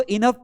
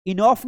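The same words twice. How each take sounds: First: "इनफ" as i-NUF, short "u" sound; teacher's model "इनफ", the "o" silent; correct pronunciation. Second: "इनफ" misread as i-NOFF; wrong pronunciation. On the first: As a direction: say इनफ with a short neutral vowel before f. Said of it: "इसको इनफ पढ़ना है". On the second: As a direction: say इनफ with an open "o" before the f. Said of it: "इनफ नहीं पढ़ना है". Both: Shown as a demonstration.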